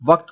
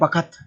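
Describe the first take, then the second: First: It uses the standard pronunciation of the word. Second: It uses the village pronunciation of the word. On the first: This is the proper form. "वक्त को" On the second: This is how village people say it. "बोल देंगे बखत"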